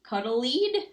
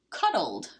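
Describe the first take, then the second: First: An extra 'ee' vowel comes before the final d. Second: No extra vowel comes before the final d. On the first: The speaker calls it wrong. "It sounds like E, right?" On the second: The speaker calls it right. "Take the silent E off"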